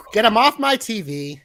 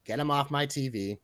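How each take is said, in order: First: Higher, louder take of the catchphrase. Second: Lower, softer take of the catchphrase; quiet catchphrase. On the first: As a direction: belt it out like a wrestler's catchphrase. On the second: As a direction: say it low and hushed, changing it up. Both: Pretend. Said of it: "to change it up a little".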